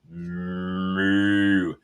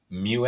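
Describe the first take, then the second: First: The vowel is a plain 'oo', like moo. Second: The vowel has a 'y' glide, like myoo. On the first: The speaker calls it wrong. "not Mu, not like a cow" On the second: The speaker calls it right. "It's like new, but with a M"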